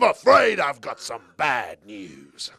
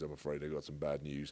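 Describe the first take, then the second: First: It is said dramatically, with much energy. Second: It is said casually, with little energy.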